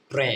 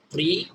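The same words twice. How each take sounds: First: "ট্রে" with an e vowel; TRE read as "tre". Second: "ট্রি" with an ee vowel; TRE read as "tri". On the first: Teacher shows second reading of TRE, e sound in "ট্রে". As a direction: say "ট্রে", ending in a short e. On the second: Teacher shows first reading of TRE, ee sound in "ট্রি". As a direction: say "ট্রি" like "tree", rising. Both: Shown as a demonstration. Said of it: "কি হবে?".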